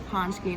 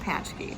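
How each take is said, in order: First: The first syllable sounds like poonch. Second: The first syllable sounds like patch. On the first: The speaker calls it right. "it's a paczki" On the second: The speaker calls it wrong. "and not a patchki"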